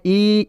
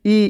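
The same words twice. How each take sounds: First: ई stretched out long and slow; a slow lengthened ई vowel; long drawn ई. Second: ई said short and clipped, not drawn out; a quick short ई vowel. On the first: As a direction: draw out the ई. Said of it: "थोड़ा आपको खींच कर पढ़ना है बड़ी ई को". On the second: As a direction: keep the ई brief. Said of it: "छोटी ई इस तरह पढ़ेंगे". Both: Shown as a demonstration.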